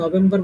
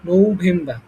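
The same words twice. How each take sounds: First: The first syllable has a short, clipped vowel. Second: The first syllable has a long 'no' vowel. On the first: The speaker calls it wrong. "আমরা নভেম্বর বলতাম" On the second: The speaker calls it right. "প্রথম হচ্ছে যেমন হচ্ছে নৌবাহিনী"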